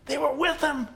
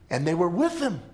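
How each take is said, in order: First: With lifted much higher; stress on with. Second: Said in the usual way. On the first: Shown as a demonstration. Preacher echoing the line to the congregation, up high on "with". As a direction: push up high on the word "with".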